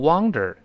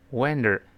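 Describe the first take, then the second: First: The first vowel sounds like in 'wander'. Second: The first vowel sounds like in 'one'. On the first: It means to roam about. The speaker calls it wrong. "不要读wonder，那变成流浪了" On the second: It means to be surprised. The speaker calls it right. "要读成one wonder"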